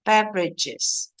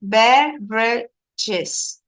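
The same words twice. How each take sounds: First: "Beverages" said slowly as one connected word; joined-up model word. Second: "Beverages" very slowly in separate syllables, BEV-re-ges. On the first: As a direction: model "Beverages" whole, syllables run together. Teacher repeats the word joined up. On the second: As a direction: break "Beverages" into three drawn-out pieces for learners. Teacher models word after recording. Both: Shown as a demonstration.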